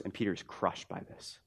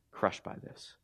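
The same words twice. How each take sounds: First: Said in the usual way. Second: Near-whisper, very soft; hushed repeat. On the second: Real, not acted. Preacher repeating Peter's heartbreak to the church, hushed. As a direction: let the line sink to a whisper.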